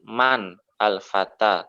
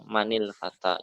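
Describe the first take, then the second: First: Each word is said separately, without linking. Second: The words are linked with an -il joining sound. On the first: "Kalau bacanya di uh, dieja-eja berarti" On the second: "Tapi kalau digabung"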